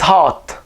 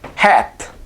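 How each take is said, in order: First: The vowel sounds like the one in hot. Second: The vowel sounds like the one in cat. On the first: The speaker calls it right. "in Coptic it's hot" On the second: The speaker calls it wrong. "you would be under the impression to pronounce this as hat"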